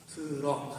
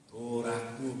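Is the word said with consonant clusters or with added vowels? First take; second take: consonant clusters; added vowels. First: Said the Korean way, ending in a consonant. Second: Said the Japanese way, with vowels added after consonants. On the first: "트럭 하면" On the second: "일본 사람들 발음을 못하죠. 트럭 하면 도라쿠"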